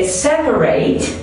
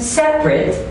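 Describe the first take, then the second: First: Said as the verb form of the word. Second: Said as the adjective form of the word. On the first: "separate as a verb" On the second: "separate as an adjective"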